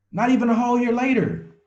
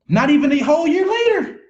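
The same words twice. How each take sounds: First: Said in the usual way. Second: "Not even a whole year later" called out much higher and louder, "later" falling; excited exclaim. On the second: Real, not acted. Coach bragging to his team about the new car, excited shout. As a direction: shout the brag triumphantly. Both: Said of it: "repeats the line".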